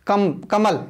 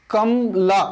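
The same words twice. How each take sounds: First: कमल closed right on the ल, no vowel after; correct ending. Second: कमला said with an open आ at the end; wrong ending on purpose. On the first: Teacher gives students the right reading, कमल stopping on ल. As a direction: stop the sound dead on ल in कमल. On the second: Teacher shows students the wrong reading, कमला ending on आ. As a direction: let कमला ring out with a final आ sound. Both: Shown as a demonstration. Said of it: "मैं बोलता हूँ".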